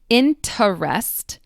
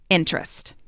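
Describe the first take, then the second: First: The unstressed middle syllable is pronounced. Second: The unstressed middle syllable is dropped.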